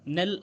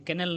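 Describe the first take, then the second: First: The word starts with an n sound. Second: The word starts with a k sound. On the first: The speaker calls it right. "नेल आपका बोला जाएगा" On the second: The speaker calls it wrong. "कैनल नहीं बोला जाएगा"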